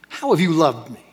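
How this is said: It sounds angry and accusing.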